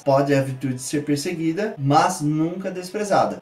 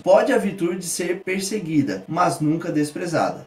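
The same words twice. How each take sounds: First: Slow, with a longer pause before "mas" to stress it. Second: Said in the usual way. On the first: Shown as a demonstration. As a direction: hold a beat, then lean on "mas". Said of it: "uma pausa maior pra dar mais ênfase à conjunção mas". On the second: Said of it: "pra dar mais ênfase a esse mas".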